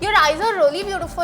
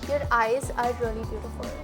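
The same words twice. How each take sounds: First: It is said in an angry tone. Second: It is said in a normal tone.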